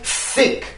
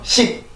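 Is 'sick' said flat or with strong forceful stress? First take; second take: forceful; flat. First: It is said with strong, forceful stress. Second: It is said flat, without strong stress. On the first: The speaker calls it right. "이렇게 강한 리듬이 생겨나게 되는데" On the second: The speaker calls it wrong. "우리나라 말처럼 sick, sick, 이런 발음이 아니라"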